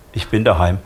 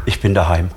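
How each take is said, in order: Both takes have the same delivery.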